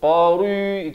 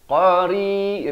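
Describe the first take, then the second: First: The r sound is heavy and thick. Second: The r sound is light and thin. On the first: The speaker calls it wrong. "Jangan qari itu tebal, salah eh" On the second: The speaker calls it right. "ri jadi nipis"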